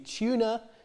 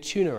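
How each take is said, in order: First: The word ends in a vowel with no r. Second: The word ends with an r linking onward. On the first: "on its own, this would be tuna" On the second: "If I say them together, that it would be a tuna amp. So the r comes back"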